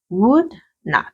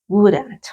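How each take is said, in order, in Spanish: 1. Se dice como dos palabras completas y separadas. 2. Se dice como una sola palabra contraída. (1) "si desean hacerlo de forma completa" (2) "yo lo estoy haciendo en forma contraída"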